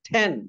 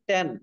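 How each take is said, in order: First: The t is said with a puff of air. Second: The t is said without a puff of air. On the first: The speaker calls it right. "বলতে হবে ঠ্যান" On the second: The speaker calls it wrong. "আমরা পড়ছি ট্যান, ট্যান না"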